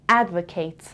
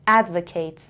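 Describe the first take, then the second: First: The last syllable has a full vowel like 'kate'. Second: The last syllable has a full vowel like 'kate'.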